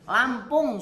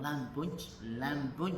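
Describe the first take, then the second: First: Said in the usual way. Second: "Lampung" said as lambun, with b for p and no ng, softer. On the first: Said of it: "susah ngomong Lampung". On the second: Retold or imitated. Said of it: "nggak bisa ang".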